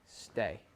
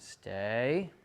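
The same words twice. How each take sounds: First: The pitch falls at the end of the word. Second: The pitch rises at the end of the word. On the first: It sounds like a command. The speaker calls it right. "It would be more of a telling stay. So don't have that tail end kind of come up" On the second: It sounds like a request or question. The speaker calls it wrong. "you don't want it to be an asking stay"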